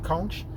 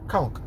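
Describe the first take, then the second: First: The word ends with a CH sound. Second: The word ends with a K sound. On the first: "You guys pronounce it C O N C H" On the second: "we're pronouncing it C O N K"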